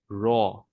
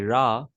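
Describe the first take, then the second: First: The letter is said heavy and full. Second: The letter is said light and thin. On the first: The speaker calls it right. "We need to make it bold" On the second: The speaker calls it wrong. "that would be wrong"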